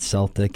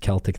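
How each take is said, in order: First: The word begins with an s sound. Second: The word begins with a k sound. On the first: The speaker calls it wrong. "I said Celtic, and they quickly corrected me" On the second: The speaker calls it right. "It's Celtic Thunder"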